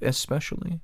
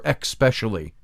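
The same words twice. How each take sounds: First: It has no k sound before the p. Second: It has an added k sound before the p. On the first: The speaker calls it right. "Isn't it" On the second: The speaker calls it wrong. "Who added the word X to your"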